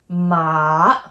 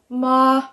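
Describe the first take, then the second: First: The pitch dips low then rises again. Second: The pitch stays high and level throughout. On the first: It means horse. "It goes down and up" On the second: It means mother. "straight across, like a monotone, very even"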